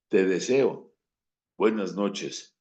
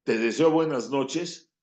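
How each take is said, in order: First: Sarcastic goodnight. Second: Sincere goodnight wish. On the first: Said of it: "que decir". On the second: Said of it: "No es lo mismo decir". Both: Shown as a demonstration.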